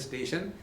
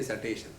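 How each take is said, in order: First: The word is said in a standard pronunciation. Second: The word is said with a Punjabi pronunciation. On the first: "if they are to ta- tell station" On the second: "they will say station"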